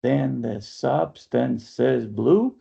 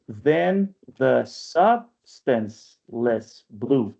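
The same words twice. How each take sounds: First: Then the substance is blue, slow and even; slow scansion read. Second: Then the substanceless blue, slower with the syllables run together; slow alternative reading. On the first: Teacher testing the student's reading, slow. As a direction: read it out slowly, syllable by syllable. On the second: Teacher proposing a small modification, very slow. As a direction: offer the modified scansion slowly. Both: Shown as a demonstration. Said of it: "I would argue a small modification".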